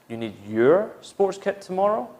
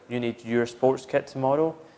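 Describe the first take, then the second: First: The word 'your' is strongly stressed. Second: No word stands out; the stress is even. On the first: The speaker calls it right. "when you see italics used like this during a conversation that you really pronounce that word" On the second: The speaker calls it wrong. "you wouldn't just say"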